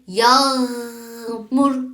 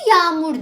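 First: The middle g is pressed into a throaty sound. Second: The middle g sound is barely pronounced. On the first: "bu gayn harfini bastırmak için yağmur demeni istiyorum" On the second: "Türkçe'de biz bunu yağmur diyoruz"

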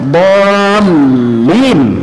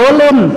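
First: The l sound is held long and doubled. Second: The l sound is short and single. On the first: The speaker calls it right. "Itu lamnya di tasjid" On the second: The speaker calls it wrong. "Bukan dolin"

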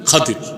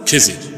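First: The middle consonant is a 'd' sound. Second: The middle consonant is a 'j' sound. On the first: The speaker calls it right. "শুদ্ধ উচ্চারণ কি? খাদির।" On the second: The speaker calls it wrong. "আমরা বলি খিজির, এটা ভুল উচ্চারণ।"

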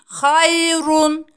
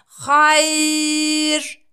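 First: The word ends with its full final vowel ending. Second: The ending is dropped and the vowel is lengthened.

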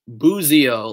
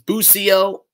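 First: The middle consonant is a buzzing Z sound. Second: The middle consonant is a hissing S sound. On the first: "like it's a Z instead of an S, because it is an Italian name" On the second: "Some say the correct pronunciation is Busio"

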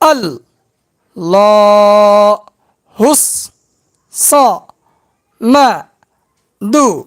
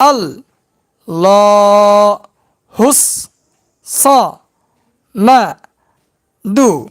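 No difference in how they are said.

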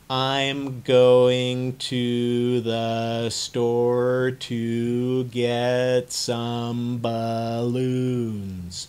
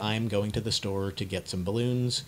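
First: It is said very slowly and drawn out. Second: It is said at a moderate pace.

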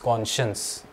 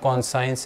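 First: The middle of the word has a 'sh' sound. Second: The middle of the word has an 's' sound. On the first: The speaker calls it right. "it's conscience" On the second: The speaker calls it wrong. "but it's not conscience"

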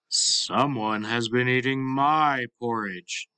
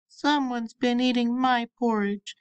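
First: It is said in a big, deep voice. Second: It is said in a tiny, small voice.

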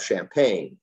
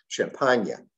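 First: It is said with an English pronunciation. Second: It is said with a French pronunciation.

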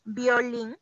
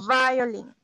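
First: The first sound is a B-like sound. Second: The first sound is a vibrating V sound. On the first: The speaker calls it wrong. "no es violín" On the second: The speaker calls it right. "es con un algo de vibración al momento de pronunciar esta palabra"

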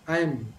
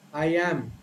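First: The words are squeezed together into one syllable. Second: The words are said as two full, separate words.

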